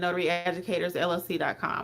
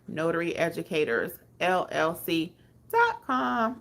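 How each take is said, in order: First: It is said at normal, quicker speed. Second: It is said more slowly.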